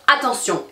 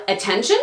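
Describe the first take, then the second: First: Attention said the French way, final syllable -tion stressed as a nasal -sjon; French "attention", the last syllable leaning heaviest; French pronunciation. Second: Attention said the English way, stress on TEN and a -shun ending; English "attention" set against the French; English pronunciation. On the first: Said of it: "en français, on va dire". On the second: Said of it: "Alors qu'en anglais, on va dire". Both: Shown as a demonstration. Comparing English and French stress for learners.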